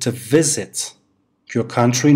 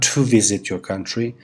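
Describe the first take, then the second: First: The word to is reduced to a weak schwa. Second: The word to is said with a full oo. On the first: The speaker calls it right. "Is it expensive to visit your country" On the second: The speaker calls it wrong. "not to visit your country"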